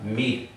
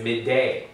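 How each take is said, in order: First: The syllable ends sharply on the d sound. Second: A short extra vowel follows the d sound. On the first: The speaker calls it right. "It's coming to a glottal stop" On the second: The speaker calls it wrong. "It's not sounded as"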